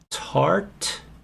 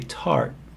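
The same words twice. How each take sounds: First: The final T is released audibly. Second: The final T is held, not released.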